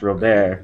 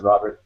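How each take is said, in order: First: The name is said with French pronunciation. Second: The name is said with English pronunciation. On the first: This is how it is said in France. "in France it's pronounced Robert" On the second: This is how the name's owner says it. "I pronounce it Robert"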